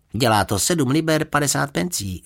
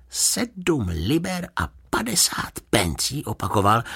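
First: Lightly voiced usherette, higher pitch; usherette stating price. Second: Slow, high-pitched disbelief; incredulous. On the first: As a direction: announce the bill in a raised pitch. (uvaděčka oznamuje cenu) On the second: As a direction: repeat it slowly, unable to believe your ears. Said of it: "nemohl uvěřit svým uším". (nevěřícně, pomalu a vysoko) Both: A narrator's reading.

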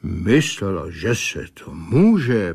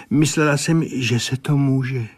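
First: Mocking parody. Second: Said in the usual way. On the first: A narrator's reading. Critic parrots the pupil's excuse back at her, mocking. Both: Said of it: "parodoval jí Souček".

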